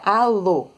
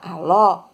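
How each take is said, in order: First: The final vowel is closed, held back. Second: The final vowel is open, pushed outward. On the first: "Eu engoli o O" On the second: "o som sai para fora"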